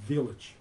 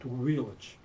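First: The word begins with a clear v sound. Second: The word begins with a w-like sound. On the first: The speaker calls it right. "нужно читать четкое V" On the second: The speaker calls it wrong. "он произносит им вот так вот"

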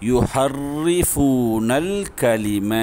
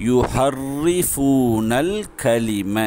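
Both takes have the same delivery.

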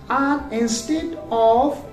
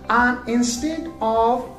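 Both takes have the same delivery.

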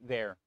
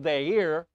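First: The word is spoken as one syllable. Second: The word is spoken as two syllables. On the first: This is the modern, reduced pronunciation. "we slur the words" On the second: This is the older, fuller pronunciation. "that ear is actually two syllables"

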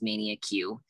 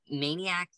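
First: The name ends with a separate 'Q' sound. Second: The name ends with an 'ack' sound. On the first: The speaker calls it wrong. "I used to think it was literally pronounced Mania Q" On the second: The speaker calls it right. "that straight up says Maniac. I've been saying it wrong for years"

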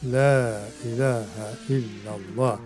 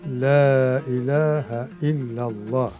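First: The first 'la' is long, the second short. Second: The same.

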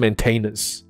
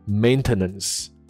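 First: The middle syllable is a full 'tain' sound. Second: The middle syllable is a weak 'tuh' sound. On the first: The speaker calls it wrong. "不是maintenance" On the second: The speaker calls it right. "变成名词的时候它的念法是maintenance"

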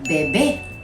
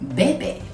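First: The stress is on the last syllable. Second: The stress is on the first syllable. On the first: It means baby. The speaker calls it wrong. "이렇게 외우시면 안 되죠? 베베 하면 아센토도 찍어야 되는 부분이 있고 의미가 베이비가 됩니다" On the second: It means he or she drinks. The speaker calls it right. "강세를 잘 따라주셔야 돼요"

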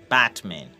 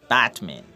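Both takes have the same delivery.

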